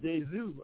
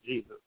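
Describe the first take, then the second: First: The name is said the Spanish way. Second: The name is said the English way. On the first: This is how people from Mexico say the name. "from Mexico. But they call it Jesus" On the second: This is the usual local way of saying the name. "instead of Jesus"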